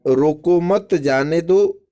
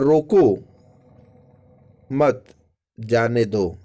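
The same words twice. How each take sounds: First: Loud, high रोको मत, जाने दो lifted at the end; pause after मत. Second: Loud रोको falling, long pause, then मत जाने दो; pause after रोको. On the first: Teacher reads first sentence of the contrast, loud on रोको मत. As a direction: ring out रोको मत, then जाने दो. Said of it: "दो चीज हो गया". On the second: Teacher shows pupils the moved comma, long pause after रोको. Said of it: "अल्प विराम के अलग-अलग स्थानों पर". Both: Shown as a demonstration.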